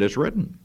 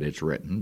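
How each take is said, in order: First: Devil's taunting "It's written." pitched higher with a rising end; mocking devil. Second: Jesus' "It's written," lower and softer; firm Jesus reply. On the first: Preacher voicing the devil taunting Jesus, mocking. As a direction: sneer "It's written." back at him as the tempter. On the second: Retold or imitated. Preacher voicing Jesus rebuking the devil, calm and firm. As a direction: settle "It's written," down quiet and sure.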